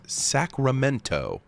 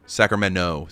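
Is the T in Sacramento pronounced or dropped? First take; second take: pronounced; dropped. First: The T near the end is clearly pronounced. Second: The T near the end is dropped entirely. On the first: "you'll never catch me saying it like that" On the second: "So there's just no T there"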